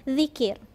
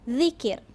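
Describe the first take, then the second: The two takes are said the same way.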